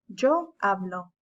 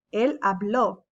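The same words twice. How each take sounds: First: Hablo said HA-blo with the stress on the first syllable and a light final o. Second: Habló said ha-BLO with the stress on the last o; stress on the final o. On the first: Teacher contrasting the present tense hablo, stress on HA. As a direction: keep the final o of hablo unstressed. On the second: Teacher showing students the accent on habló, stressed final o. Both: Shown as a demonstration. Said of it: "There's an emphasis".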